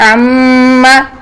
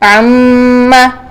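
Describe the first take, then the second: The two takes are said the same way.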